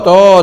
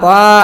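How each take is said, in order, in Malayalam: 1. ഈ അക്ഷരത്തിൽ വട്ടത്തിലുള്ള o സ്വരമുണ്ട്. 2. ഈ അക്ഷരം ലഘുവും മെലിഞ്ഞതുമാണ്, സാധാരണ ta പോലെ. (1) "തോ തോ തോക്ക് ആണോ? അല്ല" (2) "അല്ലാതെ താ താ താ ആണോ? അല്ല"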